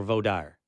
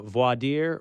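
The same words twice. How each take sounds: First: Vaudire said as voh-DIRE; Southern pronunciation. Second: Voir dire said as vwah-DEER; French-style pronunciation. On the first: Host offers the other option, vaudire as voh-DIRE. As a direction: vaudire rhyming its end with fire. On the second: Host asks about local usage, voir dire as vwah-DEER. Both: Shown as a demonstration. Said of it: "do you say".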